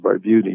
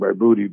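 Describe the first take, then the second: First: The name is said with American pronunciation. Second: The name is said with Italian pronunciation. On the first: This is the name as used in America. "your name is Barbuti now, it's American" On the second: This is how the grandfather said the name. "that was the pronunciation"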